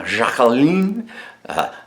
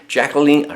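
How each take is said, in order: First: A seductive French accent on "Jacqueline"; sexiest French accent. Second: Said in the usual way. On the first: Shown as a demonstration. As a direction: purr "Jacqueline" the French way, ZHA-ke-leen. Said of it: "in my sexiest French accent". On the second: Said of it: "I have to say that in my sexiest French accent".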